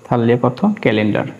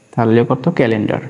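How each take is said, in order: Both takes have the same delivery.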